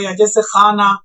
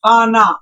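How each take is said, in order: First: خانہ with the final ha barely sounded, short closing vowel; silent final ha. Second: خانہ said with a full long alif at the end, final ha voiced as aa; wrong khana demo. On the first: Teacher showing students the right way: خانہ with a light, unopened ending. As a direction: say خانہ lightly, the last ha not opened. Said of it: "وہ ہا ہے جو کھل کر نہ پڑے". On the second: Teacher showing students the wrong way: خانہ with an open aa ending. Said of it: "ایسا لگ رہا ہے کہ اخ-، اخیر میں الف ہو". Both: Shown as a demonstration.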